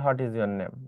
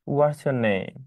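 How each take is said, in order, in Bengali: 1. 'what is' দুটি শব্দ হিসেবে বলা হয়। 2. 'what is' সংকুচিত হয়ে 'what's' হয়। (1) "ডাজন্ট ম্যাটার" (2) "ডাজন্ট ম্যাটার"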